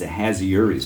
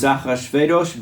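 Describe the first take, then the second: First: The name has a soft h and no throaty sound. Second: The name has a throaty ch and a v sound. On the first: The speaker calls it wrong. "not this Ahasuerus bit" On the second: The speaker calls it right. "that's how we pronounced it as kids in Hebrew school"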